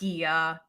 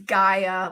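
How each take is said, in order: First: The first syllable sounds like 'gee'. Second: The first syllable sounds like 'guy'. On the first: The speaker calls it wrong. "not Gia" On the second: The speaker calls it right. "like Guy"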